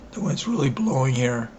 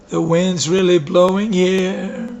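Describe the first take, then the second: First: Said in the usual way. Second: Drawn-out playful repeat. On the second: Real, not acted. Repeats remark, louder slower.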